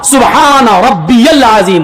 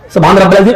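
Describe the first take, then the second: First: It is said slowly, each word said clearly. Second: It is said rushed, with words run together.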